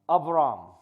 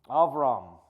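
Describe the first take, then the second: The two takes are said the same way.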